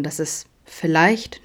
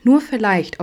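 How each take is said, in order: First: Said in the usual way. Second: Vielleicht lifted higher and louder; stress on vielleicht. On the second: A narrator's reading. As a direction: lean hopefully into vielleicht. Wiederholtes vielleicht, gesteigert. (vielleicht hoffnungsvoll betont)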